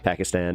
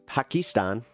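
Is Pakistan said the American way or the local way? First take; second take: American; local. First: It is said the American way. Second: It is said the local, non-American way. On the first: This is the familiar American habit. "I'm gonna just do the American thing" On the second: This is how it is actually pronounced. "is that how it's uh, actually pronounced?"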